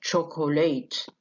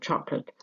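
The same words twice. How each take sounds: First: "chocolate" spelled out as "cho-ko-late"; three full syllables in "chocolate"; unreduced, the rejected form. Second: "chocolate" as two syllables, "chok-lat"; reduced syllable. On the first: Teacher showing what not to say, every vowel full. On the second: Teacher showing the reduced form, middle syllable lost. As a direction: drop the middle vowel of "chocolate". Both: Shown as a demonstration. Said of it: "مش chocolate".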